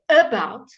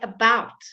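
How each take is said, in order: First: The stress is on the first syllable. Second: The stress is on the second syllable. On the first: The speaker calls it wrong. "So it's never ever the emphasis. I would never say about" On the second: The speaker calls it right. "No, we say about"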